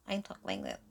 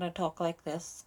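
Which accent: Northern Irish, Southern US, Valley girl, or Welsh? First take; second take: Valley girl; Northern Irish. First: It is spoken in a Valley girl accent. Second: It is spoken in a Northern Irish accent. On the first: "if I was a Valley girl, I'd talk like this" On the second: "if I was in Northern Ireland, I talk like this"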